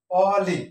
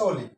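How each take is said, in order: First: অলি with an open 'aw' first vowel, louder; spelling pronunciation. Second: অলি said 'o-li', closed o first; correct pronunciation. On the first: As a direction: say অলি as written, open 'aw-li'. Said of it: "সঠিক উচ্চারণ হচ্ছে অলি". (অলি, খোলা অ দিয়ে জোরে) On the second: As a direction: round the first vowel of অলি to o. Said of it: "সঠিক উচ্চারণ হচ্ছে". (অলি-র অ হবে ও, 'ওলি') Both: Shown as a demonstration.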